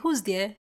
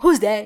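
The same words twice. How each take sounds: First: It is said calmly in a polite tone. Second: It is shouted in an aggressive tone. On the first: The caller is treated kindly. The speaker calls it right. "you could actually be very polite and say" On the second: The caller is treated like a threat. The speaker calls it wrong. "why are you shouting?"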